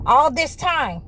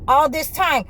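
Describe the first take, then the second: No difference in how they are said.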